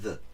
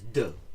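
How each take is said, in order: First: The d is soft, close to 'th'. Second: The d is a hard stop sound. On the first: The speaker calls it right. "not "the."" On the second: The speaker calls it wrong. "he pronounces the D like English. He says "duh,""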